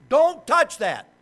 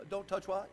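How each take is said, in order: First: Put-on loud, high, sharp order to a child; stern fatherly command. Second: Put-on child's soft comeback question; quiet defiant reply. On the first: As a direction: re-enact a father's loud scolding. Father's command to his oldest child. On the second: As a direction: answer back softly, imitating the child. Oldest child answers back to father.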